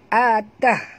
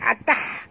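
First: The h is a soft, light breath. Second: The h is a harsh, tight throat sound. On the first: The speaker calls it right. "ini ha simpul" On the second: The speaker calls it wrong. "kalau tah situ ha pedas"

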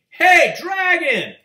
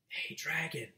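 First: It is shouted very loudly. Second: It is whispered very softly.

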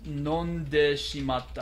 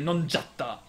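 First: The phrase is said in its full form. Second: The phrase is squeezed into a short contracted form.

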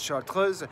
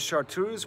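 First: It is pronounced the French way. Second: It is pronounced the English way.

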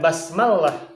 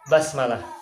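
First: The L sound is doubled and held longer. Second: The L sound is single and short. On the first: The speaker calls it wrong. "bukan basmalah" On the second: The speaker calls it right. "tapi basmalah"

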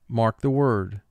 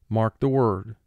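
Both takes have the same delivery.

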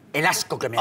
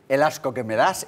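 First: It is said with strong, exaggerated disgust. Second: It is said mildly, without real disgust. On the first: The speaker calls it right. "¡Qué buena interpretación!" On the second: The speaker calls it wrong. "yo no me das nada de asco"

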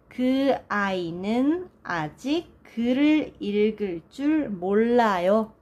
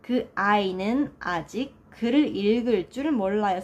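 First: It is said slowly. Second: It is said at normal speed.

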